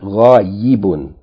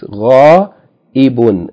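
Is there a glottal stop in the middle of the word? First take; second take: no; yes. First: No glottal stop is heard in the middle. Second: A glottal stop is heard in the middle. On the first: The speaker calls it wrong. "not ghaibun" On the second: The speaker calls it right. "with hamza on the ya"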